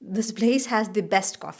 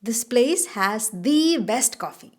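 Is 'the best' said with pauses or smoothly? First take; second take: smoothly; paused. First: The words 'the best' flow without pauses. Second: The words 'the best' are separated by pauses. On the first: "അല്ലെങ്കിൽ അല്ലാണ്ടും പറയാം" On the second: "ദി ബെസ്റ്റ് എന്നെങ്കിലും അങ്ങനെ നിർത്തി നിർത്തി പറയുന്നൊരു ഒരു രീതിയുണ്ട്"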